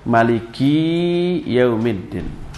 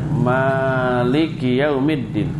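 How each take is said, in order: First: The last syllable ki is held long. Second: The first syllable ma is held long. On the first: "memendekkan mak dan li-nya tapi memanjangkan ki-nya" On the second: "membaca dengan mak yang panjang"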